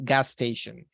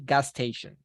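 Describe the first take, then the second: First: The two s sounds merge into one. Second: The same.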